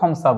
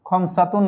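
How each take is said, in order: First: The word drops its ending and is shortened. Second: The word keeps its full -atun ending. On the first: This is the everyday spoken form of the number. "খমসা বলি" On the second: This is the written form of the number. "খমসাতুন না বলে"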